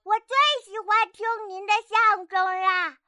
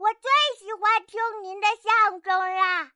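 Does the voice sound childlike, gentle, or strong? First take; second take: childlike; childlike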